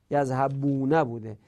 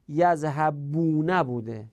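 First: Said in the usual way. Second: Slow, careful syllables on یذهبونه; drawn-out teaching example. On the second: Shown as a demonstration. Teacher showing students the form, slow and careful. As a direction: spell out یذهبونه slowly for the class. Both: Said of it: "ولی در یذهبو".

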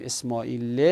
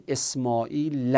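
First: "اسماعیل" ending in -e; incorrect kasra ending. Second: "اسماعیل" ending in an open -a; fatha ending. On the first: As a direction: say "اسماعیل" with a final kasra, Esmā'ile. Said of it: "به جای اینکه بگیم". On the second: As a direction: say "اسماعیل" with a final fatha, Esmā'ila. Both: Shown as a demonstration.

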